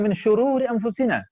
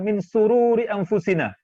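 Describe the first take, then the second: First: The second word begins with an 'sh' sound. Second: The second word begins with a plain 's' sound. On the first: We seek refuge from the evils of ourselves. The speaker calls it right. "Harusnya min syururi anfusina" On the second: We seek refuge from our own joy. The speaker calls it wrong. "di Belitung mengucapkan min sururi anfusina"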